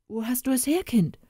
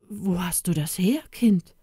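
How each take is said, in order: First: Pressing, higher and insistent; urgent. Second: Halting, shaken question; stammered. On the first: Father urging the boy to tell him quickly. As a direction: demand it, impatient to know. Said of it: "Sag es mir geschwind". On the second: Father stammering when he sees the cross on the boy. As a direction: stumble over it, caught off guard. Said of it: "stammelte er". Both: A narrator's reading.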